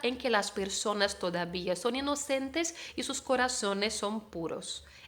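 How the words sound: The z in corazones sounds like s. It is the pronunciation of most of America. "Esta Z entre los dientes que hago con la C y con la Z no va a pasar"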